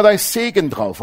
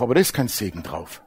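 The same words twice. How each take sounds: First: Mock popular belief. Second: Low, quiet rebuttal; sober correction. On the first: Preacher voicing what people always think, mock-confident. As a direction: voice what people wrongly assume, pitched up. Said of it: "Die Leute denken immer". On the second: Real, not acted. Preacher correcting what people think, low and sober. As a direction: drop pitch and volume to contradict. Preacher refutes the popular belief.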